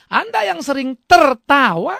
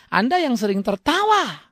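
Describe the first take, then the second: First: Anda stressed with a rising tune, drawn out slowly; slow it down and lean on Anda; slow, emphatic repeat. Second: Said in the usual way. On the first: Shown as a demonstration. Preacher repeating his sentence so the congregation notices, slow and emphatic. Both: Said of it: "perhatikan kalimat saya".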